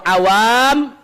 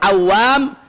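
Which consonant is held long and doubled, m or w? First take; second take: m; w. First: The m sound is doubled and held long. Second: The w sound is doubled and held long. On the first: It means ordinary common people. "mimnya yang pakai tasdid" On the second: It means a swimmer, someone good at swimming. "wawunya yang pakai tasdid"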